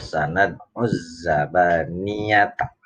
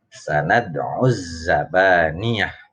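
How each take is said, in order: First: The phrase runs on, ending in a full ta. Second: The phrase stops, ending in a soft h sound. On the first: The reader continues into the next verse. "kalau dibaca wasal" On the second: The reader stops at the end of the verse. "Kalau dibaca waqaf"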